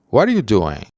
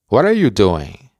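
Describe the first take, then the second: First: The word are is dropped completely. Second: The word are is pronounced, linked to what. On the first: "Otra forma más informal de pronunciar esta oración es no pronunciando are" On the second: "la oración completa se pronuncia"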